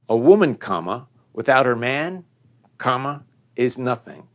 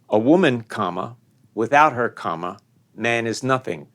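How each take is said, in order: First: The second break comes right after 'man'. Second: The second break comes right after 'her'. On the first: The woman is worthless without the man. "Second, a woman, comma, without her man, comma, is nothing" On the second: The man is worthless without the woman. "First, a woman, comma, without her, comma, man is nothing, period"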